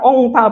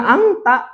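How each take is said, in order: First: The vowel is o with a ng sound. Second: The nasal is a back ng sound. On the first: "bukan ongta apalagi" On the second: "Bukan angta"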